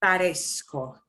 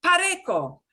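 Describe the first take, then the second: First: "Parezco" with an s before the "ko"; soft C sound. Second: "Pareco" higher, with a hard k; hard C pronunciation. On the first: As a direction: say "Parezco" as "pa-res-ko", lower. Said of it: "back to that soft". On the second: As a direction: say "Pareco" as spelled, ending in "ko". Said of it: "it would be pronounced like this". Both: Shown as a demonstration.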